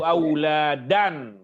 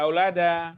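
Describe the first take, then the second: First: The word ends with a clear final n sound. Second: The word ends on a plain vowel, no n. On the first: The speaker calls it right. "jangan ragu-ragu mengucapkan tanwinnya" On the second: The speaker calls it wrong. "Jangan aulada aulada"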